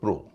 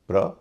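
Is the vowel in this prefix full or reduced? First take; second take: full; reduced. First: The vowel is a full, long o. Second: The vowel is short and reduced. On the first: "प्रो और प्रो भारी है" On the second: "प्र हल्का है"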